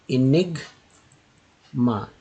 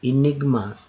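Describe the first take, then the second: First: Enigma drawn out slowly, each syllable spelled out. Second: Said in the usual way. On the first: Shown as a demonstration. Teacher stretching Enigma for students, very slow. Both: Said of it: "देखिए".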